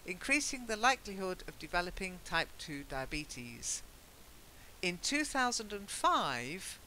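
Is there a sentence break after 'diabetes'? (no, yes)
yes. A clear break follows 'diabetes', with a new tone. The year begins a new sentence. The speaker calls it right. "it should be read"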